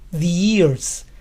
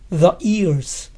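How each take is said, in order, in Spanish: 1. El artículo suena como 'thee' delante de vocal. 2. El artículo suena como 'thuh' delante de vocal. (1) "este artículo se pronuncia the antes de palabras que empiezan con sonido de vocal" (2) "pronuncian el artículo the en todos los casos"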